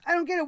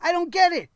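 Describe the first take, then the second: First: Same words pulled back in volume, a baffled shrug. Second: Louder, pitched up, stressing GET in disbelief; exasperated outburst. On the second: Reviewer venting to viewers about a pointless match, loud and exasperated. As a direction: throw the line out in loud disbelief. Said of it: "but man". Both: Real, not acted.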